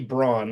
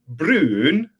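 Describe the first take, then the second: First: The vowel sounds like 'ow' in 'brown'. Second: The vowel is an unusual rounded 'oo' sound. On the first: This is how a German would say it. "In German, it would probably be Braun" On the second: This is how a Norwegian would say it. "in Norwegian, it would be pronounced like Brun, like a weird kind of uh sound"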